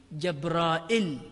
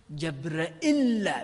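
First: جبرائيل slowly, with long "raa" and short "'il"; Hasan al-Basri's reading. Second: جبرائيل with a held, doubled final "ll"; doubled lam. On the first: Teacher giving a rare reading, جبرائيل with long alif. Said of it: "وهي قراءة الحسن البصري". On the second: Teacher giving Ibn Muhaysin's reading, جبرائيل with doubled lam. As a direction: say جبرائيل as "jab-ra-'ILL", leaning on the lam. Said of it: "بتشديد اللام". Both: Shown as a demonstration.

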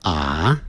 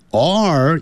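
First: "are" as an open "ah"; British, no R. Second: "R" (are) with a curled tongue; drawn-out "R" with the r sounded; American R. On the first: Teacher shows British English, "are" without the R. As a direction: leave the R off "are". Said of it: "在英式英语". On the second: Teacher shows American English "are", R fully sounded. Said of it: "所以要卷舌". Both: Shown as a demonstration.

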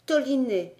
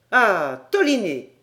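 First: Said in the usual way. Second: Loud, delighted exclamation of recognition; surprised cry. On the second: Acted. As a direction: call the name out, struck by recognition. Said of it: "s'écria Paganel". (exclamation surprise et forte)

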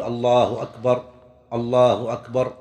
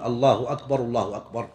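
First: Two separate phrases of "الله أكبر", each ending on a stop; pause between phrases. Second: "الله أكبر الله أكبر" linked in one breath, falling softer at the end; takbirs joined. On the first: Teacher showing the adhan phrase by phrase, pausing after each "أكبر". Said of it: "يقف على كل جملة". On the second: Teacher showing the two takbirs, joined without stopping. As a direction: run both "الله أكبر" together without a pause. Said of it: "يقرن بين التكبير". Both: Shown as a demonstration.

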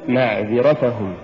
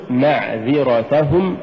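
First: "معذرتهم" falling away, weak ta; mispronounced معذرتهم. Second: "معذرتهم" slowly, gentle push on ta; correct معذرتهم. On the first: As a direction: say معذرتهم with no push before hum. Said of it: "ولا تقل". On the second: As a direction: lean lightly on the ta of معذرتهم. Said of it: "قل". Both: Shown as a demonstration.

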